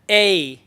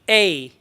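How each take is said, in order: First: The vowel curves into a glide. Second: The vowel curves into a glide.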